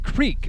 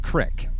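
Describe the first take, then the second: First: The word is said with a long vowel, 'creek'. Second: The word is said with a short vowel, 'crick'. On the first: The speaker is not from the area. "But it's Creek for everyone else" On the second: The speaker is a local of the area. "If you're a native to Johnson Creek, you say it Crick"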